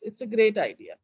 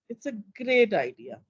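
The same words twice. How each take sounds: First: The tone sounds mildly positive but hesitant. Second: The tone sounds negative and mocking. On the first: The idea is accepted with some doubt. "Still positive, but was I as positive as before? Yeah, a bit doubtful" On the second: The idea is actually thought bad. "I'm actually going into negatives. ... I even became sarcastic"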